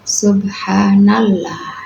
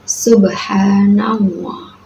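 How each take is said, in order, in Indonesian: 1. Huruf L pada Allah dibaca tipis. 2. Huruf L pada Allah dibaca tebal. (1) "tidak boleh dibaca" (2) "jadi dibaca tebal juga"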